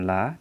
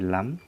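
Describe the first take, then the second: First: The word ends without a final m sound. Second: The word ends with a final m sound. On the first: The speaker calls it wrong. "bukan la" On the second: The speaker calls it right. "tapi lam"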